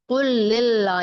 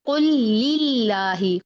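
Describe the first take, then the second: First: लिल्ला with a heavy, dark L; thick lam. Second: Slow recitation of कुल लिल्लाही, light held L; spread thin lam. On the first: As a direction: thicken and round the L in कुल लिल्ला. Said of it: "नहीं पढ़ना इसको". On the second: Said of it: "हिल में भी फैलाएंगे". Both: Shown as a demonstration.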